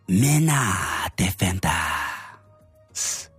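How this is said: It is said in a put-on Japanese-style accent.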